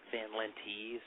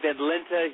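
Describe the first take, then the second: First: The surname is pronounced the American way. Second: The surname is pronounced the Dutch way. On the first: This is how the family says it in America. "Here in America, my family's always pronounced it Lenti" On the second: This is how it is said in the Netherlands. "in Amsterdam it'd be Van Lente"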